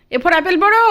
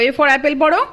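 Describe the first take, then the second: First: Much higher, louder, পড়ো rising sharply; insistent reading prompt. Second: Higher, louder, prompting পড়ো with a rise. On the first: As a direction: push harder on পড়ো. Repeats prompt more insistently. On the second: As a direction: coax her to read পড়ো. Reading to a toddler. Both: Real, not acted.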